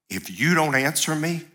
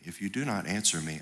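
First: It is pleaded in a desperate, urgent way. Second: It is read in a calm, detached way.

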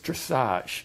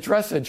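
First: It is said French-style, ending in -ahzh. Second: It is said like an English word, dress-age. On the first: The speaker calls it right. "it's dressage" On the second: The speaker calls it wrong. "which is not"

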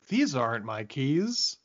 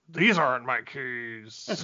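First: It sounds puzzled, like a sudden realization. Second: It sounds angry and aggressive. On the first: The character is realizing something is off. The speaker calls it right. "I think it was supposed to be, wait a minute" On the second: The character seems hostile rather than confused. The speaker calls it wrong. "But it was like, He sounds angry"

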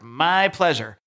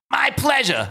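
First: It is said in the speaker's normal voice. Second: It is said in a put-on character voice.

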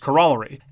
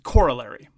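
First: The stress is on the second syllable. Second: The stress is on the first syllable. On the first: This is the traditional British pronunciation. "the emphasis of the second syllable, which is the more traditional British pronunciation" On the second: This is the American pronunciation. "Americans pronounce it corollary. That's the emphasis on the first syllable"

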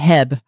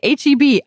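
First: The name is said as one short word. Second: The name is said as three separate letters. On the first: The speaker calls it wrong. "I've always thought they're talking about Heb" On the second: The speaker calls it right. "And people say HEB"

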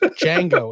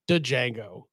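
First: The starting D sound is silent. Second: The starting D sound is pronounced. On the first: The speaker calls it right. "It's just Django" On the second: The speaker calls it wrong. "It's not Django"

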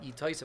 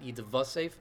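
First: An O vowel follows the first syllable. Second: A hard V sound follows the first syllable. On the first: This is the grammarians' pronunciation. The speaker calls it right. "but Yitosef as a chaylam" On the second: This is the modern Hebrew pronunciation. The speaker calls it wrong. "not Yitvasef with a hard vav"

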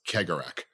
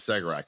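First: The name begins with a K sound. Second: The name begins with an S sound. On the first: The speaker calls it right. "people kept telling me, no, it's Kegarak" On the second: The speaker calls it wrong. "It's spelled Segarak to any American because it's a C-E"

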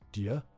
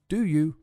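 First: The two words blur into one short syllable. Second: Both words are said fully and clearly.

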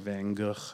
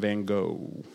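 First: It is said with an attempted Dutch pronunciation. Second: It is said with a Midwestern American pronunciation. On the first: "I'm trying to be fancy and say it how the Dutch people" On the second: "That's how we kind of say it maybe here in the Midwest"

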